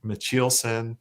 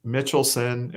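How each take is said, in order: First: Mitchelson with ch and stress on the middle; telemarketer's mispronunciation. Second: Mitchelson starting like the name Mitchell; telemarketer's mispronunciation. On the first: [name] gives telemarketers' other version, Mitchelson as muh-CHEEL-son. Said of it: "like, telemarketers". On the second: [name] quotes telemarketers' version, Mitchelson like Mitchell. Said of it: "is what I'll get from". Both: Shown as a demonstration.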